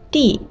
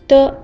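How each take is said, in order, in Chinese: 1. 这个音节读第四声，音调急降。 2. 这个音节很短、很轻，没有声调。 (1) "D 要读4 声" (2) "D 要读轻声"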